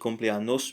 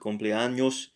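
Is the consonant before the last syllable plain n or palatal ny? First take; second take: plain n; palatal ny. First: The last syllable starts with a plain n. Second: The last syllable starts with a palatal ny. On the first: The speaker calls it wrong. "It's not cumpleaños" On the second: The speaker calls it right. "but cumpleaños"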